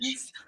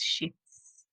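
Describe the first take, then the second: First: The word is said without an f sound. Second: The word is said with an f sound. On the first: The speaker calls it wrong. "not without the F" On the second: The speaker calls it right. "shifts with an F"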